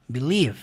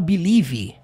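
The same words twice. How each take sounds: First: The word ends cleanly on the V sound. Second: The word ends with an extra vowel after V. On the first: The speaker calls it right. "A palavra termina no som do V" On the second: The speaker calls it wrong. "você não fala believe. Isso aqui não tem som no final"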